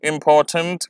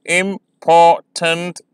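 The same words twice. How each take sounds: First: Said in the usual way. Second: "इंपॉर्टेंट" slow, im-por-tant split; syllable by syllable. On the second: Shown as a demonstration. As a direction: count out "इंपॉर्टेंट" in three beats. ("इंपॉर्टेंट" धीरे, तीन syllable में) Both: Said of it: "आप pronounce करेंगे".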